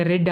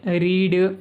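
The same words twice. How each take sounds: First: రెడ్ said short, rhyming with the colour red; రెడ్ with a short clipped e, not reed; past tense read as red. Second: రీడ్ said with a long ee, like "reed"; రీడ్ with a stretched ee sound; reed, present tense. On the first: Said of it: "రెడ్ అని పలకాలి". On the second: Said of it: "ఇక్కడ spelling అంతా ఒకటే". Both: Shown as a demonstration.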